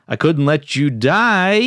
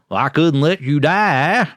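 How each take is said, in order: First: It is said in a plain voice. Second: It is said in a Southern country drawl.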